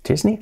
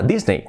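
First: "Disney" as a higher, questioning "chís-ni"; baffled listener echoing "Disney" as "chisni"; puzzled English-style Disney. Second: "Disney" as "dis-nei", in recognition; Spanish-style Disney. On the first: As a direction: query "Disney" ending in "nee". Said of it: "¿Qué dices?". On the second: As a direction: say "Disney" with an "ei" ending. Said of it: "No nos entendería nadie". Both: Acted.

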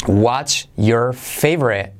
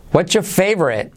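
First: Word by word, very slow; slow careful model. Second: "What's your" run together as "whatcha", higher; linked natural model. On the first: Teacher introducing the question to learners, slow and separated. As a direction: separate "What's", "your", "favorite". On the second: Teacher repeating for learners, "What's your" linked and higher. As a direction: join "What's your favorite" in one flow. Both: Shown as a demonstration.

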